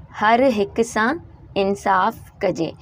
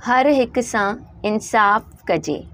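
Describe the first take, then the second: First: हर हिक सां, pause, इंसाफ़ कजे, each half slowly; slow dictation in two parts; split slow reading. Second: Slow dictation; slow reading of the line. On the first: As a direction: break the line in two for the class. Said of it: "ये दो लाइनें हैं". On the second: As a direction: read हर हिक सां इंसाफ़ कजे slowly, word by word. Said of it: "नीचे जो हमारे पास लाइन है". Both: Shown as a demonstration.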